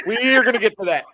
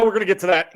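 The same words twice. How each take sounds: First: Emphatic promise, punching ARE; stress on ARE. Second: Said in the usual way. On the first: Real, not acted. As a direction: lean hard on the word "are".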